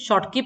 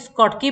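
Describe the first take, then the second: First: The word begins with an 'sh' sound. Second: The word begins with an 'sk' sound. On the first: This is the English way of saying it. "English शॉर्टकी पढ़ते हैं" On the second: This is the American way of saying it. "American स्कॉटकी पढ़ते हैं"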